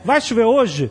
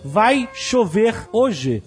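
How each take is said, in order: First: The words run together without any pauses. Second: Each word is said separately with pauses.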